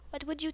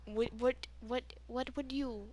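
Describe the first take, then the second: First: Said in the usual way. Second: Slipping slightly into an Indian accent; soft, halting hint of Indian accent; accidental Indian accent. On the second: Real, not acted. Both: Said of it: "why am I getting an Indian accent".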